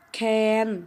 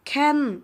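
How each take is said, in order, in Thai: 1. พยางค์นี้เป็นเสียงกลางราบ 2. พยางค์นี้เป็นเสียงตก (1) "เสียงสามัญ" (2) "เสียงโท"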